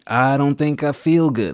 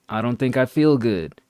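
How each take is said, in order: First: The voice is steady and firm. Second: The voice wavers and shakes.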